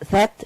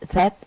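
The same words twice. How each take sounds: Both takes have the same delivery.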